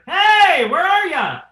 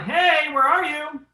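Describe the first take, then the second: First: It is said at a higher pitch. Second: It is said at a lower pitch.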